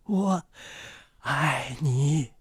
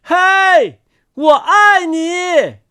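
First: Soft, gentle near-murmur; softly. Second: High, drawn-out hailing shout; loud call. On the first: Words fly to old man's ear, said softly. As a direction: say it gently, well below full voice. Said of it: "轻轻地说". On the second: Words flying over a mountain, calling loudly. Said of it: "大声说". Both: A narrator's reading.

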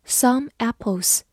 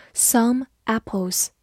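First: Said in the usual way. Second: Slow, careful model reading; slow repeat. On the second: Shown as a demonstration. Teacher repeating a phrase for students, slow and careful. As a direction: say it slowly for the learners. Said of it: "teacher repeats slowly".

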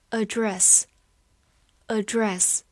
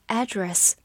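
First: "Address" slow, stress on the first syllable, AD-dress; "address" as the noun, stress the AD; "Address" read slowly, first syllable stressed. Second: "address" with an open first vowel, AD-dress; "address" the American way, a-dress with a clear first a; "address" American style, stress on the first syllable; American noun address. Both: Shown as a demonstration. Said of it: "美式发音也可以读作address".

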